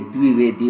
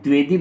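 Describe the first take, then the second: First: The word is pronounced in a careful, standard way. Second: The word is pronounced in a careless, hasty way. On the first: The speaker calls it right. "जबकि ये द्विवेदी होता है" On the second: The speaker calls it wrong. "इसको हम द्विवेदी बोल जाते हैं"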